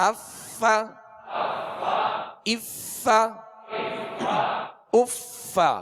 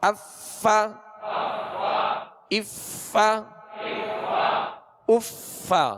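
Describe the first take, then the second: The two takes are said the same way.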